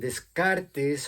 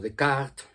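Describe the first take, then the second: First: The name is said with Spanish sounds. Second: The name is said with French sounds.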